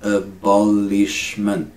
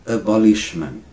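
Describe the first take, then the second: First: "Abolishment" slow, each syllable held. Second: Said in the usual way. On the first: Shown as a demonstration. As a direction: stretch "Abolishment" out for learners. Teacher slows word into syllables.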